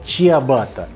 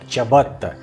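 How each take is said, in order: First: The word is pronounced the Russian way. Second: The word is pronounced the Italian way. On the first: "В русском языке прижилось слово чиабатта" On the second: "итальянцы произносят это дело как чиабатта"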